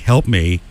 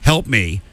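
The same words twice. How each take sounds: First: It is said in a mocking, ironic tone. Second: It is said in an earnest, urgent tone. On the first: The sender is joking about the situation. "as sort of sarcastic" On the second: The sender genuinely needs assistance. "I need assistance right now"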